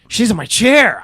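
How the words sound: It is said in an excited tone.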